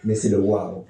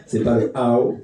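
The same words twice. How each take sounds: First: "wow" dit à l'anglaise, avec un w net devant, comme "wao"; English wow. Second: "how" dit à l'anglaise, sans w, comme "ao"; English how. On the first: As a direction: faire rimer "wow" avec "how", en ajoutant le w. ("wow" à l'anglaise, avec un w au début) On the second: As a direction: prononcer "how" en anglais, avec un léger accent français. ("how" à l'anglaise, sans w devant) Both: Shown as a demonstration. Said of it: "en anglais".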